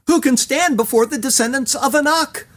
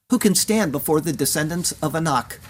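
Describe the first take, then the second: First: Higher, mocking echo of the fearful cry; ironic. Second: Said in the usual way. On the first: Moses mocking the people's fearful question, ironic raised echo. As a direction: quote the people's worry with raised ironic disbelief. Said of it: "Moses ironically repeats what the people called out". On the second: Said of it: "of whom you heard it said".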